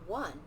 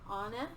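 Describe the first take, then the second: First: It starts with a 'w' sound. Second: It starts with an open 'ah' vowel. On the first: The speaker calls it right. "That sounds like one" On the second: The speaker calls it wrong. "That, that doesn't sound right"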